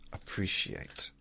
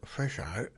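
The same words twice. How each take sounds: First: The word is enunciated with every sound clear. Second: The word is mumbled and its sounds are blurred. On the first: The speaker calls it right. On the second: The speaker calls it wrong. "That's a mumble, isn't it?"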